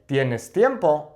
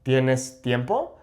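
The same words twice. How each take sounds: First: "tiempo" falling at the end; slow Spanish statement, pitch down to close "tiempo"; statement intonation. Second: "tiempo" rising at the end; slow Spanish question, voice climbing on "tiempo"; question intonation. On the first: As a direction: state it slowly, voice dropping on "tiempo". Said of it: "I'm saying a statement". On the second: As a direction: ask it slowly, lifting "tiempo". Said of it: "change the intonation". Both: Shown as a demonstration.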